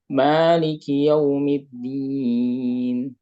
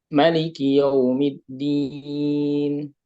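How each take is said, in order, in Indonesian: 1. Vokal pertama pada Maliki itu panjang. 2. Vokal pertama pada Maliki itu pendek. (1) "membacanya dengan isbat alif" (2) "dibuang alifnya"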